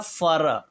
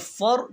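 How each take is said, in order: First: The word ends with an added vowel. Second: The word ends on a bare consonant. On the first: The speaker calls it wrong. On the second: The speaker calls it right.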